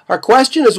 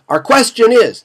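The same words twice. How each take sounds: First: It is spoken quickly, running into the next words. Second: It is spoken slowly as a short separate piece. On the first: The speaker calls it wrong. "You're not going to say" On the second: The speaker calls it right. "you've got to speak slowly"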